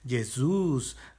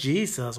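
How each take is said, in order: First: The name is pronounced the Portuguese way. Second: The name is pronounced the English way. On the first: "o en portugués" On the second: "O en inglés"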